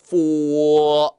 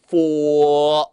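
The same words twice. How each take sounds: Both takes have the same delivery.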